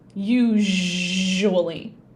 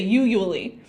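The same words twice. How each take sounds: First: The middle zh sound is clearly pronounced. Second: The middle zh sound is skipped. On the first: The speaker calls it right. "it's zh, usually" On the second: The speaker calls it wrong. "they'll just skip it and they'll say usually. And that's not right"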